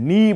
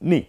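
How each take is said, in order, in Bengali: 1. স্বরটি লম্বা করে টানা। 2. স্বরটি ছোট ও দ্রুত বলা। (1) "আপনি নি বলবেন না" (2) "বলবেন নি"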